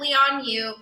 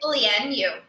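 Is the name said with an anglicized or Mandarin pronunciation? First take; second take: anglicized; Mandarin. First: The name is said with an anglicized pronunciation. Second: The name is said with a Mandarin pronunciation. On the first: This is how the show says it. The speaker calls it wrong. "they call it Lianyu. ... that's not the correct way to pronounce it" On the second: This is how it is said in Chinese. The speaker calls it right. "It's Lianyu"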